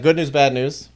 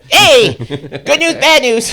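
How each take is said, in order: First: It is said in a normal voice. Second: It is said in a high-pitched voice.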